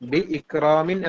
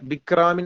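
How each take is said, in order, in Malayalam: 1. bi, ikramin എന്നിവയ്ക്കിടയിൽ ഒരു ഗ്ലോട്ടൽ സ്റ്റോപ്പ് ഉണ്ട്. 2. bi ഇടവേളയില്ലാതെ നേരിട്ട് ikramin ലേക്ക് കടക്കുന്നു. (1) "നമ്മൾ ഹംസയെ വ്യക്തമാക്കിയിട്ട് തന്നെ പറയാം" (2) "അല്ലാതെ ബിക്രാമിൻ എന്നല്ല"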